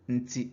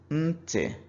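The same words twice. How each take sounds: First: The N carries a low tone. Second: The N carries a high tone. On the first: It means cheek. "we assign low tone to the N" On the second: It means ear. "when the N is assigned a high tone"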